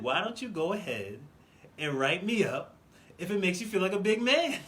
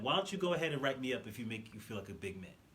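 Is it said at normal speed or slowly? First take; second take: slowly; normal speed. First: It is said more slowly, deliberately. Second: It is said at normal speed.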